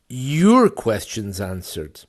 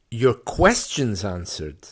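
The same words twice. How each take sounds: First: The first word carries the stress. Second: The middle word carries the stress. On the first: The answers are to this listener's questions, not another's. "Not mine, but yours" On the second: Questions are answered, not statements or other thoughts. "Not just your your statements, ... but your questions answered"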